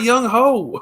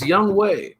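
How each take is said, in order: First: The surname starts with an 'h' sound. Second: The surname starts with a 'w' sound. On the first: The speaker calls it wrong. "It's not Young Ho" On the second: The speaker calls it right. "that's how you pronounce it. It's Young Wei"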